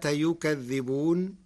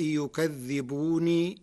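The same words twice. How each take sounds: First: Said in the usual way. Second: يكذبون as yukadhibuni, ending in a long i; final ya kept. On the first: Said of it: "وتسكن النون سكونا عارضا للوقف". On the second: Shown as a demonstration. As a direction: carry يكذبون on into a final "nii". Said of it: "بإثبات ياء يكذبون وصلا".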